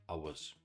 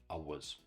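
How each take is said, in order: The two takes are said the same way.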